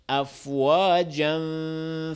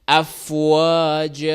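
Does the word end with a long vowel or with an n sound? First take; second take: n sound; long vowel. First: It ends with an n sound, flowing on. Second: It ends on a drawn-out a, no n. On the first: The reciter continues into the next word. "Avec la continuation, on prononce le an" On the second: The reciter stops after this word. "Si on s'arrête, hein, on s'arrête comme ça"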